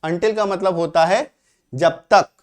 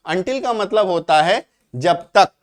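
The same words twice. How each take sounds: The two takes are said the same way.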